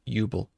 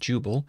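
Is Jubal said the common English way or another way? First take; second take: another way; common English. First: It uses a non-English pronunciation. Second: It uses the common English pronunciation. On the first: "We'll do Jubal" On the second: "even though that's the common English pronunciation"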